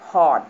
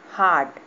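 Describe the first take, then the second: First: हॉट with a rounded aw, loud and low; English hot. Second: हाट said loud with an open aa; हाट with long aa. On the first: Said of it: "लेकिन जब H O T". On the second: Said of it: "हाट होता है बाजार". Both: Shown as a demonstration.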